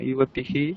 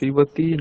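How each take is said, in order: First: The word ends with an echoed h-sound. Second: The word ends on a plain vowel. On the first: It marks the singular form. The speaker calls it right. "বিসর্গটাকে একটু উচ্চারণ করো" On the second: It sounds like the dual form. The speaker calls it wrong. "ইউবাতি না"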